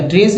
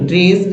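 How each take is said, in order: First: ट्रेस said with a hissed S ending; S-ending mispronunciation. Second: ट्रेस said as "trayz", ending in Z; voiced Z ending. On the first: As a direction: show the mistaken "trace" sound in ट्रेस. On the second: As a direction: model ट्रेस with a buzzing Z in place of S. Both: Shown as a demonstration. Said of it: "ट्रेस नहीं बोलेंगे".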